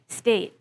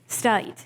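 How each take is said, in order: First: The vowel is a steady, single 'eh' sound. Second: The vowel sounds like the vowel in 'eye'. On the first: The speaker is among the very youngest. "an even more peripheral, and we say monophthongal vowel" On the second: The speaker is older and uses a southern dialect. "they pronounce the sound A like I"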